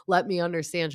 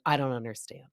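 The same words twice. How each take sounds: First: Lightly imitated concern; mock sympathy. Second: Unsympathetic deadpan imitation; Jen Fessler. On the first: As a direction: offer a pretend sympathetic plea. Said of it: "Instead of being like". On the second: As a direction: mimic unmoved refusal to sympathize. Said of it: "she's also not being sympathetic".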